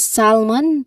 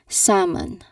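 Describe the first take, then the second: First: The L sound is pronounced in the word. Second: The L sound is silent in the word. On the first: The speaker calls it wrong. "this is not co- um, pronounced as salmon. There's no pronunciation of letter L sound here, which is a common mistake" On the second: The speaker calls it right. "the L sound is silenced. So it should be salmon"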